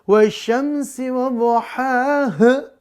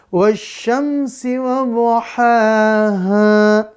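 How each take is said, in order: First: The final vowel is cut off very short. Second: The final vowel is held a moderate length. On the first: The speaker calls it wrong. "jadi kayak keselak itu bukan ngaji" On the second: The speaker calls it right. "Tetap dipanjangkan dua rakaat"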